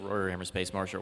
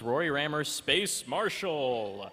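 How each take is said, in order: First: It is said in a plain, ordinary way. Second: It is said in a dramatic, announcer-like way. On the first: The speaker calls it wrong. "You can't just say" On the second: The speaker calls it right. "You have to say it like that"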